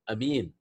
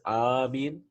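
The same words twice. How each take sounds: First: The first vowel is said short. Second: The first vowel is drawn out long. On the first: "Like Yamin, مثل يمين" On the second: "Like Yasin"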